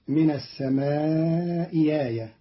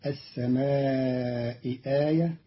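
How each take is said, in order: First: آية said as ياية, the second hamza turned into ya; Qalun's reading. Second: السماء آية with both hamzas fully pronounced; standard Hafs reading. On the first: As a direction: say السماء ياية, gliding into a ya sound. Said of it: "بإبدال الهمزة الثانية ياء". (إبدال الهمزة الثانية ياء في آية) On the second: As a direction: say السماء آية with a clear glottal stop on آية. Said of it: "قرأ قالون كلمتي". (السماء آية بتحقيق الهمزتين) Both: Shown as a demonstration.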